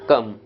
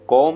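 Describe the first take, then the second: First: The vowel is a short 'uh' sound. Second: The vowel is a rounded 'aw' sound. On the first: The speaker calls it right. "इन शब्दों में ओ का उच्चारण अ होता है" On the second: The speaker calls it wrong. "कॉम नहीं होगा"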